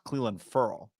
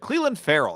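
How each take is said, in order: First: The surname is said with one syllable. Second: The surname is said with two syllables. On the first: The speaker calls it right. "no, it's Furl" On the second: The speaker calls it wrong. "it was like Cleveland Farrell"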